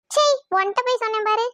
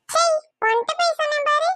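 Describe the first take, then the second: First: Mildly disgusted huff; irritated scoff in a near-usual pitch; huffy. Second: High-pitched mimicking huff; teasing, pitched-up repeat; mocking echo. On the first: Acted. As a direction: regret having told them, mildly cross. Lovers' tiff, first huffy take. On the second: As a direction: throw the huff back in a higher voice. Echoes the huffy line back.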